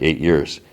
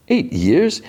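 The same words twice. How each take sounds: First: Said in the usual way. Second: High, rising disbelief; incredulous echo. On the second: Retold or imitated. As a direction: throw it back as a stunned, high-pitched question. Retold incredulous echo of answer.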